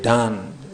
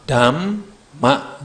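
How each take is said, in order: First: The lips stay open instead of closing for m. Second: The lips close fully for the m sound. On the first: The speaker calls it wrong. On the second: The speaker calls it right.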